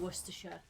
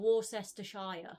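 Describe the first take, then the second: First: The name is said in a short, reduced form. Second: Every written syllable of the name is sounded out. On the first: This is how the name is actually pronounced. "What do you mean Worcestershire?" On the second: This is how the name is written. "It's spelled Worcestershire"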